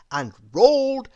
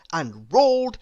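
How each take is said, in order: Both takes have the same delivery.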